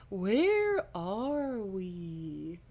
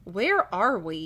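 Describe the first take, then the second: First: Hammed-up dazed voice, extremely slow; very drawn-out, swooping dazed question; exaggerated daze. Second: Slow, dazed question; groggy, stretched-out words. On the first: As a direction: stretch every word right out, woozily. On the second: A narrator's reading. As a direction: ask it slowly, as if dazed. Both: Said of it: "he asks in a dazed voice".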